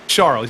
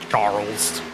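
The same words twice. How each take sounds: First: The name is said with a French pronunciation. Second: The name is said with an English pronunciation. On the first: "he doesn't say Charles" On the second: "He says Charles. So so English"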